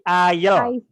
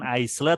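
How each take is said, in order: First: The word is pronounced unlike its spelling. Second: The word is pronounced the way it is spelled. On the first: The speaker calls it right. "tapi aisle" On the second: The speaker calls it wrong. "bukan aisle"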